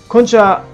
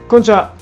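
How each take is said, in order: No difference in how they are said.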